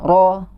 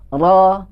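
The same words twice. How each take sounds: First: The vowel is said with rounded, pushed-out lips. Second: The vowel is said with an open, unrounded mouth. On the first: The speaker calls it wrong. "jangan ro" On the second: The speaker calls it right. "harus dibuka tanpa ada monyong"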